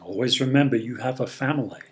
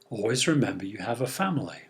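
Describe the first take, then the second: First: It is said in a stern, warning tone. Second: It is said in a warm, comforting tone. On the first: It is a warning to behave well while away. "He understands it as a warning to behave himself" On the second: It is a reassuring reminder of home and family. "he understands it as a comforting reminder of what he can come home to"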